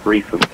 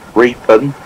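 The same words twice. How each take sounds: First: The middle consonant is an F sound. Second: The middle consonant is a P sound. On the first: The speaker calls it right. "you pronounce the P as an F, so it's Reapen" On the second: The speaker calls it wrong. "It's not Reapen"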